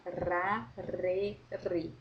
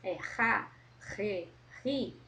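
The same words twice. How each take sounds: First: Ra, re, ri with a light tapped tongue-tip R; tongue-tip syllables. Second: Ra, re, ri rasped in the throat; throat R syllables. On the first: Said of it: "na ponta da minha língua". (Ra, re, ri com R na ponta da língua) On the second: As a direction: sound ra re ri from the throat. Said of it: "no fundo da minha garganta". (ra, re, ri com R na garganta) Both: Shown as a demonstration.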